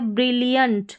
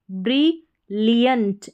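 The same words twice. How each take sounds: First: Said in the usual way. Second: ब्रिलियंट बहुत धीरे, हर अक्षर साफ; ब्रिलियंट को खींचकर धीरे साफ बोलें; slow clear demo. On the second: Shown as a demonstration. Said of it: "double L I A N T". (ब्रिलियंट धीमे साफ उच्चारण में)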